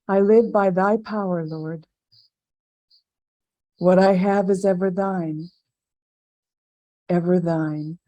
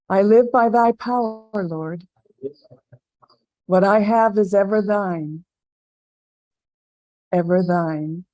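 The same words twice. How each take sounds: First: It is said aloud but more quietly. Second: It is said aloud at normal volume.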